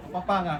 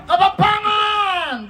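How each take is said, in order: First: Kapampangan said low and soft, much lower; quiet call. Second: Kapampangan shouted slowly, stretched out; drawn-out shout. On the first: Host quietly floating the next language, low and soft. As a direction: mutter the word Kapampangan to yourself. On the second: Host announcing the next language, slow loud shout. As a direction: bellow the word Kapampangan long and loud. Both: Shown as a demonstration.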